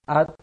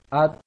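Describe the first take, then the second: First: It ends in a t with little air. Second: It ends in a t with little air.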